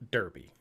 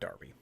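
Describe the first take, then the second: First: The first vowel sounds like 'er' in 'her'. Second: The first vowel sounds like 'ar' in 'car'. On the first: The speaker calls it right. "the first thing I'm going to say is Derby" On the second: The speaker calls it wrong. "not Darby"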